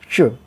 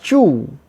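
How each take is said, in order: First: The vowel is short. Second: The vowel is long. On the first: The speaker calls it right. "but chu" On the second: The speaker calls it wrong. "not chu"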